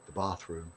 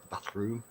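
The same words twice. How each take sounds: First: Said in the usual way. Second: "bathroom" with a short flat a, questioning; short northern vowel. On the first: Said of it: "or as you guys in America call it". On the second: Shown as a demonstration. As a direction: say "bathroom" with the a of "cat". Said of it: "See, where I come from, we say bath".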